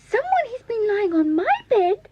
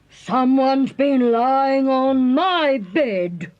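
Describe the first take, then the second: First: It is squeaked in a tiny, high voice. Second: It is growled in a medium-pitched voice.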